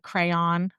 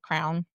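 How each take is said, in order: First: The word is said at normal speed. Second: The word is said fast, nearly one syllable. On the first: "Like like crayon" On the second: "but fast, like crown"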